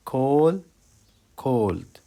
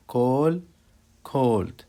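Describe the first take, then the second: No difference in how they are said.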